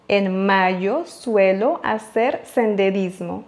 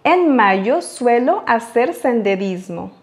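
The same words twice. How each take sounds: First: Softer repeat. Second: Slow model reading; slow model sentence. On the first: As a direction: repeat slow and much softer. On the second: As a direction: read the Spanish slowly and clearly. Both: Shown as a demonstration. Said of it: "voyons maintenant un exemple".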